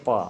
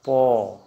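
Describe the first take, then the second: First: "प" with an open a, "pa"; Hindi pronunciation. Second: "पो" loud, with a long rounded o; Assamese pronunciation. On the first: Teacher introducing the Hindi letter, open "pa". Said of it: "Hindi में उच्चारण". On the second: Teacher modelling for students, loud drawn-out Assamese "po". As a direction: stretch "पो" firmly as "po". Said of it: "असमिया में बोलेंगे". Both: Shown as a demonstration.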